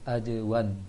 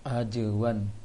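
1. Huruf j diucapkan dengan pantulan. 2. Huruf j diucapkan dengan pantulan.

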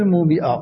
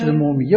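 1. الحرف الأوسط همزة. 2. الحرف الأوسط صوت ياء. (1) "بالهمزة ولا بالياء" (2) "مش المومية"

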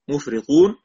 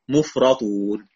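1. صوت r مفرد ويليه i. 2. صوت r مفرد ويليه a. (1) "نافع بكسر الراء مخففة" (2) "والباقون بفتحها مخففة"

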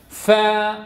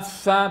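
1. الفاء تُنطق بخفة دون نفخ الخدين. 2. الفاء تُنطق بنفخ الخدين. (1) "اعتمد على طرف الثنايا العليا مع بطن الشفة السفلى" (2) "ولا أقول فا فا فا بنفخ الخدين"

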